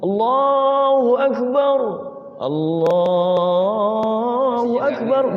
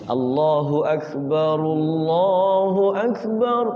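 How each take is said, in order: First: There is a pause between the two phrases. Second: The two phrases run together without a pause. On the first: "kalau mau diwakaf ya diwakaf ... Boleh, ada jeda" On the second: "kalau diwasal dengan lafaz Allah berarti tafkhim"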